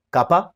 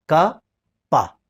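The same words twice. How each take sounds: First: Said in the usual way. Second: KA, a clear pause, then PA; syllable by syllable. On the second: Shown as a demonstration. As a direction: say KA and PA as two separate syllables. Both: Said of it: "ka khorang syllable chik".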